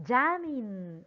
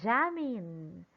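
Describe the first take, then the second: First: The stress is on the first syllable. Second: The stress is on the first syllable.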